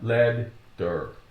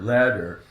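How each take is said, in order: First: The middle consonant is doubled across a break. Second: The middle consonant is one quick D sound. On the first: The speaker calls it wrong. "It's not lead der" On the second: The speaker calls it right. "So the T sounds like a D, one D"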